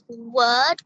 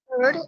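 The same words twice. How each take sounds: First: The R sound after the vowel is silent. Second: The R sound after the vowel is pronounced. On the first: The speaker calls it right. "The R sound should always be silent when it comes after vowel" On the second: The speaker calls it wrong. "not word"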